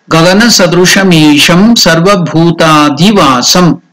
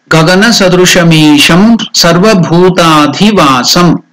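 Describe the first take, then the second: The two takes are said the same way.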